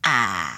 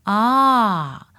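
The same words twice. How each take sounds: First: The voice sounds squeezed and tight. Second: The voice sounds relaxed, with the neck centered.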